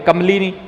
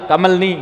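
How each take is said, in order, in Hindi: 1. l और n के बीच एक छोटा 'i' स्वर है। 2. l और n के बीच कोई स्वर नहीं है। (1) "सही है" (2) "गलत है"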